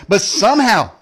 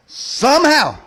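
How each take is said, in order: First: Said in the usual way. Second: Somehow, drawn out with suspense. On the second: Acted. Repeats word, high, drawn out.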